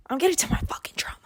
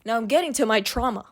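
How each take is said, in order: First: Quick, hushed whisper; fast whisper. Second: Said in the usual way. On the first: Real, not acted. Teasing viewers about the trauma ahead, fast whisper. Repeats it dramatically.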